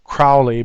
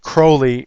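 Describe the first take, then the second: First: The name is said not rhyming with holy. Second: The name is said to rhyme with holy. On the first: A pronunciation the bearer did not want. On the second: The pronunciation the bearer himself wanted.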